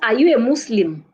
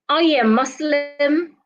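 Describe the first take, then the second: First: The pitch falls at the end. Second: The pitch rises at the end. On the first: The speaker calls it wrong. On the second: The speaker calls it right. "your tone is expected to rise at the end of that question"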